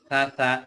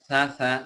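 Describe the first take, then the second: Both takes have the same delivery.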